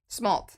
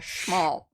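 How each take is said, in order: First: The word begins with a plain S sound. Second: The word begins with an SH sound.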